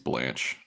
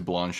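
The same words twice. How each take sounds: First: The name is said plainly without an added accent. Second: The name is said with an added foreign-sounding accent. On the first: The speaker calls it right. "I think it's supposed to be Blanche" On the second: The speaker calls it wrong. "I like the little accent you added"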